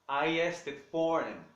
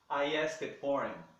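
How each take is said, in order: The two takes are said the same way.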